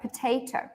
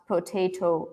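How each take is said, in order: First: One syllable is stressed; the others are quieter. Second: All syllables are said with equal weight. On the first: The speaker calls it right. "all of the syllables that are unstressed, so this one in potato" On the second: The speaker calls it wrong. "we don't say word stress ... We don't speak like this"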